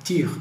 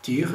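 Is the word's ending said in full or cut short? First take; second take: cut short; cut short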